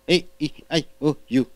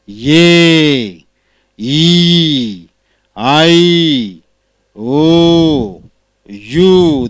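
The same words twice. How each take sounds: First: The vowels are lax and short. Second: The vowels are tense and long. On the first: "It is lack, short" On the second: "This is tense"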